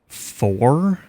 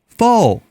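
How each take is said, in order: First: It is said with a clear final R. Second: It is said in a Southern drawl, no R.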